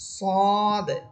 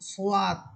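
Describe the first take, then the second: First: No w glide follows the first consonant. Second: A w glide follows the first consonant. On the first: The speaker calls it right. "বরং হরফগুলো হবে সদ" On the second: The speaker calls it wrong. "এটা কিন্তু ভুল উচ্চারণ"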